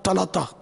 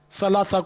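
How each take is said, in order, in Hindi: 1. शब्द 't' ध्वनियों के साथ बोला जाता है। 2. शब्द 's' ध्वनियों के साथ बोला जाता है।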